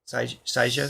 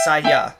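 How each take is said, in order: First: The middle consonant is a J sound. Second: The middle consonant is a Y sound. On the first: The speaker calls it wrong. "How do you say that?" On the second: The speaker calls it right. "pronounce the J as a Y sound"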